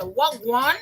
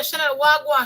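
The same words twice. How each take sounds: First: "Wagwan" mangled by an outsider, puzzled rising tune; funny mispronounced "Wagwan". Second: "wagwan" said the Jamaican way, easy and falling; Jamaican greeting. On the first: Retold or imitated. Daughter echoing the patois greeting back awkwardly, puzzled "Wagwan". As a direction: mimic a daughter fumbling "Wagwan" as a question. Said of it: "it sounds so funny". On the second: Shown as a demonstration. Mother greeting her daughter in patois, relaxed "wagwan". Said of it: "When I say".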